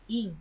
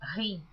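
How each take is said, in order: First: The word begins directly with a vowel. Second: The word begins with a breathy h-like sound. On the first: It is read as written in Portuguese. "Eu pronuncio como está escrito hin" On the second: This is how some other people read it. "Algumas pessoas pronunciam rim"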